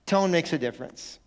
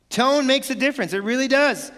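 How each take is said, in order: First: Said in the usual way. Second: "Tone makes a difference" pitched high with force; "Tone makes a difference" said high and insistent; emphatic. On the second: Real, not acted. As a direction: drive home "Tone makes a difference", voice raised. Slogan repeated, then driven home.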